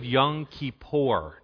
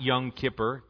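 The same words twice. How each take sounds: First: The second word does not sound like 'kipper'. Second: The second word sounds like the fish 'kipper'. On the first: The speaker calls it right. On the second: The speaker calls it wrong.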